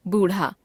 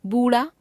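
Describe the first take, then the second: First: बूढ़ा with aspirated flap ढ़, falling; बूढ़ा as būṛha, closing fall. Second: बूढ़ा said as बूड़ा, rising; बूढ़ा without aspiration, end lifted. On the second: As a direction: drop the breath of ढ़ in बूढ़ा. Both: Shown as a demonstration. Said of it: "ड़ और ढ़ की अशुद्धियां".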